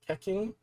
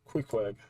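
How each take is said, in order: First: The name is said like 'Keking'. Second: The name is said like 'Queequeg'. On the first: The speaker calls it wrong. "I might be butchering that really hard" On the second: The speaker calls it right. "it's pronounced Queequeg"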